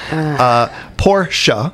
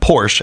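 First: The word is said with two syllables. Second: The word is said with one syllable. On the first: The speaker calls it right. "how it's supposed to be pronounced, with two syllables" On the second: The speaker calls it wrong. "not Porsche, as I just did"

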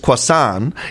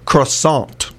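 First: The word is pronounced the French way. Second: The word is pronounced the English way. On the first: "In French, it's croissant" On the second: "In English, it's pronounced croissant"

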